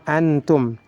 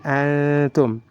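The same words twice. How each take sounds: First: The n sound is pronounced clearly. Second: The n sound is hidden and nasalized. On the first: The speaker calls it wrong. "tidak boleh antum" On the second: The speaker calls it right. "tapi antum. Nunnya disamarkan"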